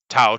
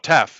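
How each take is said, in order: First: It ends in an open 'ow' vowel sound. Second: It ends in a clear f sound. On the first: This is the classical pronunciation used in English. "tau is classical Greek" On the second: This is how modern Greeks actually say it. "They say tef"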